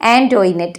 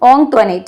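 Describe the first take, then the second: First: It starts with 'an' and has a 'toi' sound. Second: It starts with a nasal 'ong' and has no 'oi'. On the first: This is how most classmates said it. The speaker calls it wrong. "Most of them pronounced it as" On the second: This is how the name ought to be said. The speaker calls it right. "ശരിക്കും അത് pronounce ചെയ്യേണ്ടത്"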